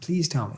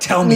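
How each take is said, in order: First: It sounds like a gentle, genuine request. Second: It sounds like a forceful, demanding order.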